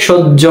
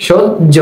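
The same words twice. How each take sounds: First: Said in the usual way. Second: সহ্য broken into "shoj... jo"; split syllables. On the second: Shown as a demonstration. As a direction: say সহ্য in two beats with a doubled j. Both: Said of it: "জয়ের মতো".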